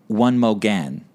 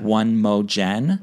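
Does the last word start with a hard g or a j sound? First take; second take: hard g; j sound. First: The last word starts with a hard g. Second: The last word starts with a j sound. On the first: The speaker calls it right. "Like one more again" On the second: The speaker calls it wrong. "just how you had pronounced it"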